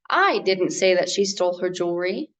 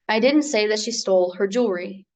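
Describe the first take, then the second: First: One word is said with strong emphasis. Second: It is said with neutral, even stress.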